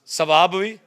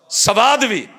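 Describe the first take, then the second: First: सवाब said loud with a rising, unfinished tune; first half of contrast. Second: सवाद punched high and loud, then falling; emphatic punchline. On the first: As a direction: lift सवाब भी and leave it hanging. Preacher setting two words against each other. (ਸਵਾਬ ਉੱਤੇ ਜ਼ੋਰ, ਚੜ੍ਹਦੀ ਸੁਰ) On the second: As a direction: hit सवाद hard as the payoff. Preacher punching the second word. (ਸਵਾਦ ਉੱਤੇ ਉੱਚੀ ਆਵਾਜ਼ ਨਾਲ ਪੂਰਾ ਜ਼ੋਰ) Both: Shown as a demonstration.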